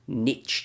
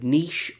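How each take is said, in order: First: The word is said in an American way. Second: The word is said in a British way. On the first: The speaker calls it wrong. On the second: The speaker calls it right.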